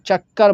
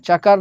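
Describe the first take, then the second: First: The middle k sound is held and doubled. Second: The middle k sound is short and single. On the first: The speaker calls it right. "दो बार पढ़े जाते हैं ... भारी पढ़ा जाता है" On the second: The speaker calls it wrong. "चकर नहीं बोलेंगे"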